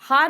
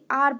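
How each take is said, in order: First: The word begins with an h sound. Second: The word begins directly with a vowel. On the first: The speaker calls it wrong. "इसको हार नहीं पढ़ेंगे" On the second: The speaker calls it right. "आर pronounce करेंगे"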